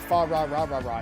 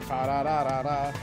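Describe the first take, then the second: First: The r sounds are English-style r sounds. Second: The r sounds are Japanese-style r sounds. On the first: The speaker calls it wrong. "they're pronouncing it as an English R, which they would not have done" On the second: The speaker calls it right. "It'd be"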